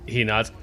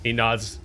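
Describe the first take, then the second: No difference in how they are said.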